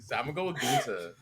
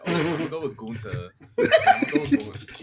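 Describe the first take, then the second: First: Said in the usual way. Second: Mocking a friend's New York accent, laughing. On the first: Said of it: "Is that how you say it?". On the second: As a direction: ham up a New York girl announcing Gunther. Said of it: "she really sounded like a New York bird".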